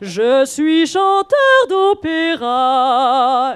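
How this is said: It is said with opera-style vibrato.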